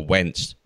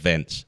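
First: The name begins with a W sound. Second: The name begins with a V sound. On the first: The speaker calls it right. "with a win and not a V at the start" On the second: The speaker calls it wrong.

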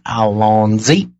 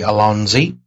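First: The word is said in an exaggerated French accent. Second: The word is said in a plain, ordinary voice. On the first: "his little fake foo-foo French accent" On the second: "we say Alonzi"

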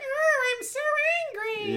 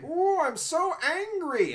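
First: It is the same voice, slightly more feminine. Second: It is Marvin the Martian's masculine cartoon voice.

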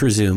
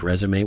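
First: It is said as the verb, ending in 'zoom'. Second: It is said as the noun, ending in 'may'. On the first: To continue after a break. "I think it's resume because there's no little dash" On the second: A written summary of one's career. "little flippy things on the top of the E's like resume"

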